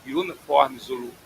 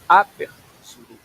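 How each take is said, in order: First: Said in the usual way. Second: "Upper" stressed and held, said in English; correct term, stressed. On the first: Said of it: "não é". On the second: Shown as a demonstration. Instructor correcting a student's airway name, stress on Upper. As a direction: lean on "Upper" in "Upper Zulu". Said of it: "é Upper Zulu".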